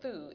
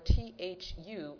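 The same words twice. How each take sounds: First: The acronym is pronounced as a single word. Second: The acronym is spelled out letter by letter.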